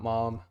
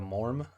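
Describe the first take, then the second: First: The word is said without an R sound. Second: The word is said with an R sound. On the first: The speaker calls it wrong. "It's not mom" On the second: The speaker calls it right. "pronounced with an R sound"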